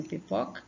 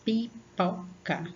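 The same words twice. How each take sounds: First: Said in the usual way. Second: "Pipoca" slow, in three separate beats pi, po, ca; syllable by syllable. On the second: Shown as a demonstration. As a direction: open up each syllable of "Pipoca". ("Pipoca" pausadamente, sílaba por sílaba) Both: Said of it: "abri a boca pausadamente".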